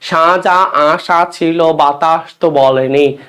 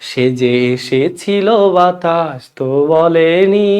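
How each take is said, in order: First: The 'e' vowels are open, like 'a'. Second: The 'e' vowels are closed, like 'e'. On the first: It sounds unromantic. The speaker calls it wrong. "বিবৃত মানে unromantic" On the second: It sounds romantic and beautiful. The speaker calls it right. "সংবিত romantic"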